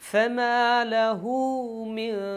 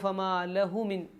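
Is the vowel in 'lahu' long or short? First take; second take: long; short. First: The vowel in 'lahu' is lengthened. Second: The vowel in 'lahu' is said short. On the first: The speaker calls it right. "ലഹു ഒന്ന് നീട്ടാം" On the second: The speaker calls it wrong. "ചിലർക്ക് ഓതുമ്പോൾ ഫമാ ലഹു മിൻ എന്നോതി പോവാറുണ്ട്"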